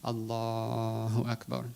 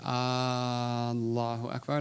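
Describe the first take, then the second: First: The stretch falls on the 'la' of Allah. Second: The stretch falls on another syllable. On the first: It states that God is great. The speaker calls it right. "there's only one place you can stretch, which is the lam" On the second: It asks whether God is great. The speaker calls it wrong. "that's a question"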